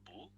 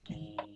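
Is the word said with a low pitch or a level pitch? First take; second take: low; level. First: The word is said with a low pitch. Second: The word is said on a level pitch. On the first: "boo with a low voice, then it become height" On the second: "no rising or falling. Straight sound"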